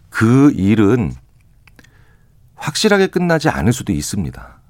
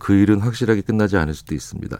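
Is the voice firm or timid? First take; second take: firm; timid. First: It is said in a firm, clear voice. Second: It is said in a faint, shrinking voice.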